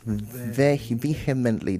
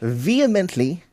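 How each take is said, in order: First: The H sound is pronounced. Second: The H sound is not pronounced. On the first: The speaker calls it wrong. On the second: The speaker calls it right.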